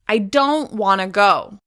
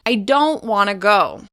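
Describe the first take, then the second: The two takes are said the same way.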